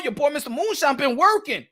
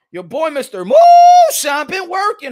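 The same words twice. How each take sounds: First: Said in the usual way. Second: Loud, high, slow showman's call; self-hyping holler. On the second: Real, not acted. Host bragging on his own research, hollered. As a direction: stretch out MOONSHINE in a big high holler. Hypes himself, then repeats it bigger.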